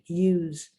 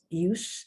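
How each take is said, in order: First: The final consonant is a buzzing Z sound. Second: The final consonant is a hissing S sound. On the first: It is a verb. "pronounced like a Z" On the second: It is a noun. "pronounced like an S"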